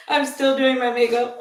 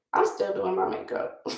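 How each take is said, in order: First: Words bubbling through real laughter; laughing. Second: Said in the usual way. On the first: Real, not acted. To viewers while doing makeup, laughing. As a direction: laugh your way through the line. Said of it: "I'm laughing because I'm still". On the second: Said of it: "I'm laughing because".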